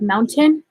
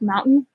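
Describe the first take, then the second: First: The middle t is clearly pronounced. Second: The middle t is dropped or glottal. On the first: "instead of" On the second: "have such a heavy Utah accent and I say stuff like mountain"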